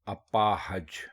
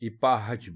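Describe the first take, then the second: First: The word begins with an a sound. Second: The word begins with an i sound. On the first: The speaker calls it right. "दुरुस्त लफ्ज है अपाहज" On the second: The speaker calls it wrong. "इपाहज बिल्कुल गलत है"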